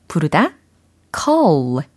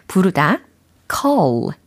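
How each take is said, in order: The two takes are said the same way.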